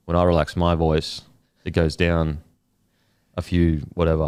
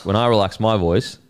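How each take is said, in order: First: Fully relaxed, lower register. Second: Said in the usual way. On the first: Shown as a demonstration. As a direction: let the voice drop low and loose. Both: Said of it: "try to relax it now".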